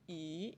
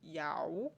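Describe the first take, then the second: First: It is said as the single vowel 'yi'. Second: It is said as the diphthong syllable 'yao'. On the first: "Ele tem duas pronúncias. Ele pode ser i" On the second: "ele pode ser iau ... utilizado principalmente quando a gente vai falar números"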